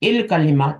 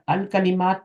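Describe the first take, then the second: First: The 'a' vowel drops; an 'i' links in. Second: The article starts with its own 'a' vowel. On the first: The word is joined to the word before it. "इसने अपनी हरकत को ड्रॉप कर दिया, इल कलिमात बन गया" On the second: The word is read on its own. "या अल कलिमात था"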